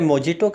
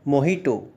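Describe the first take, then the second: First: The middle consonant is a j sound. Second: The middle consonant is an h sound. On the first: The speaker calls it wrong. "इसे मोजिटो कहा जाता है" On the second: The speaker calls it right. "सही उच्चारण मोहिटो होता है"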